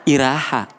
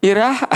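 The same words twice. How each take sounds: First: Said in the usual way. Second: Iraha asked higher with a rising, disbelieving tune; incredulous denial. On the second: Retold or imitated. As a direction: make Iraha a playful rise of mock innocence. Husband denies, two takes.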